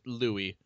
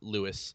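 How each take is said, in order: First: The name is pronounced the French way. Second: The name is pronounced the English way. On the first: The speaker calls it right. "it looks kind of French, so I'm assuming it's Louis" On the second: The speaker calls it wrong. "not Louis"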